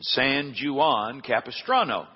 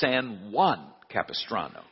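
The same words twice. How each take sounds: First: Juan begins with a J sound. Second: Juan begins with an H sound. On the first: The speaker calls it wrong. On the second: The speaker calls it right.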